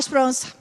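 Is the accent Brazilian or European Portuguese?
European. It has a European accent, second vowel swallowed.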